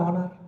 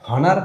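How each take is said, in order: First: The word begins with a vowel sound. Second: The word begins with an h sound. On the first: The speaker calls it right. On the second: The speaker calls it wrong. "হনার না"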